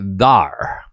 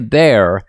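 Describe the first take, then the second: First: The vowel sounds like 'ar'. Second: The vowel sounds like 'air'. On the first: "they say thar" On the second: "they don't say there"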